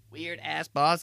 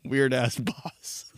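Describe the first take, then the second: First: Said in the usual way. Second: Slow mocking line, rising; slow drawn-out. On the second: Shown as a demonstration. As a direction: stretch it slowly, rising at the end.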